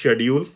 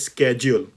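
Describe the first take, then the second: First: It is said in a British pronunciation. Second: It is said in an American pronunciation. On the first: "British version में होता है शेड्यूल" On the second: "American English में होता है स्केड्यूल"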